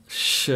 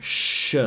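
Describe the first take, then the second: First: "sh" with air passing through the front teeth. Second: "sh" made with the air at the back teeth. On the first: Teacher contrasts two letters, front-teeth sh. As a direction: make the "sh" far forward, at the teeth. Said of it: "air is passing through the front teeth". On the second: Teacher contrasts two letters, back sh. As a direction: pull the "sh" back in the mouth. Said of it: "with the air passing in the back". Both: Shown as a demonstration.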